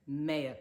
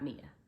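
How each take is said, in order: First: The word does not sound like the name Mia. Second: The word sounds like the name Mia. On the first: The speaker calls it right. "mea culpa, not Mia" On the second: The speaker calls it wrong. "not Mia"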